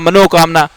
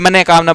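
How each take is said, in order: First: The first part ends in an o sound. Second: The first part ends in a breathy h sound. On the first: The speaker calls it wrong. "बाकी सारे लोग मनोकामना" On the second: The speaker calls it right. "दो जना ही बोले मने कामना"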